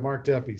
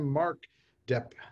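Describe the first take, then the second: First: The surname ends with an added ee vowel. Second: The surname ends on a p sound. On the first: The speaker calls it right. "pronounce it Deppy" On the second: The speaker calls it wrong. "Depp or Deppy?"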